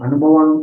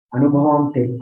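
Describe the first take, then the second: First: A louder restart landing on అనుభవం; stressed అనుభవం. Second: Said in the usual way. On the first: Shown as a demonstration. Restart with emphasis.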